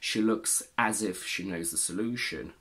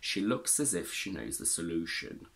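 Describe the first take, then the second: First: The vowel in 'as' is full and strong. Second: The vowel in 'as' is a weak schwa. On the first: The speaker calls it wrong. "We don't actually say" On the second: The speaker calls it right. "We say"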